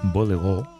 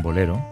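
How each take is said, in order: First: It is said with a French accent, final stress. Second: It is said with a plain Spanish accent.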